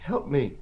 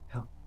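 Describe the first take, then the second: First: It is said very loudly. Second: It is said faintly and quietly.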